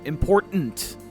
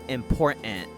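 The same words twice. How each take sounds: First: The word is fully enunciated, every sound clear. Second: The word is clipped, not fully enunciated. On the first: The speaker calls it right. "either pronounce it all the way" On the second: The speaker calls it wrong. "She said it important"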